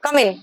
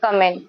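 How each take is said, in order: First: It is said in a sharp, angry tone. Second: It is said in a calm, polite tone. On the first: "अगर आप politely की जगह anger में बोलो" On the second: "politely वे में अगर आप किसी को कम इन बोलोगे तो कैसे बोलेंगे"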